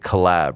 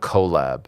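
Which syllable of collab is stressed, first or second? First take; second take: second; first. First: The stress is on the second syllable. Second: The stress is on the first syllable. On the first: The speaker calls it right. "it should have been like collab" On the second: The speaker calls it wrong. "not collab"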